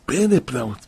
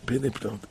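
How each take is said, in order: First: Said in the usual way. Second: פלא פלאות said much softer, fading away; quiet awed repeat of פלא פלאות; soft echo. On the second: Real, not acted. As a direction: let פלא פלאות sink to a hushed echo.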